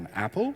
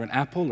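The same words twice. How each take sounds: First: It is said in an Australian accent. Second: It is said in a plain, ordinary way. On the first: The type is a nullable apple. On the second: The type is a plain apple.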